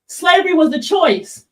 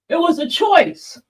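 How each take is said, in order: First: Said in the usual way. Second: A light mocking echo of the claim. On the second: Streamer mimics [name]'s claim to viewers, lightly mocking. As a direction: repeat it back as if in his shoes, scoffing. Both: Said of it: "[name] saying shit like".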